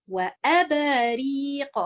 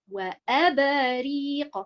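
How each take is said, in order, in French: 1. L'accent tombe sur le hamza et le ra. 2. L'accent tombe sur le hamza et le ra.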